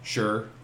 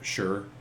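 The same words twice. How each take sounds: First: The word is said in a general Canadian way. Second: The word is said in a general Canadian way.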